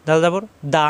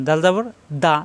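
No difference in how they are said.

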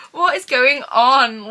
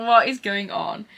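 First: Louder and slow, each word stretched in amazement; stunned exclamation. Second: Said in the usual way. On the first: Real, not acted. Staring at the gifted books, loud slow amazed outburst. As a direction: let it burst out, floored.

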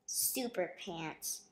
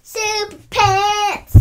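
First: Said in the usual way. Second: Loud, high and drawn out; show-host title shout; excited title announcement. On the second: Acted. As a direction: belt out the title slowly, like a big reveal.

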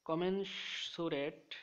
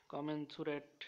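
First: কমেনসুরেট drawn out slowly, syllable by syllable, pitched higher; slow headword. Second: Said in the usual way. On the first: Shown as a demonstration. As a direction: announce কমেনসুরেট slowly as the new word. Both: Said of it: "শব্দের অর্থ হলো".

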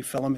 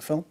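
First: "film" in two syllables, like "fillum"; first "film" said as Scouse "fillum". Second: Said in the usual way. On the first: Shown as a demonstration. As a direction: add a short vowel before the m in "film". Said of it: "people will say film instead of film". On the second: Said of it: "instead of film".

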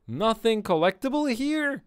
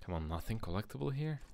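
First: Loud, high-pitched disbelief; incredulous outburst. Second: Quick, softer muttered question; muted questioning. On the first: Player finding no items in the room, incredulous outburst. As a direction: cry it out much higher and louder. Louder repeat after finding nothing. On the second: Player searching a game room for items, muted questioning. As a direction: ask it under your breath, quickly. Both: Real, not acted.

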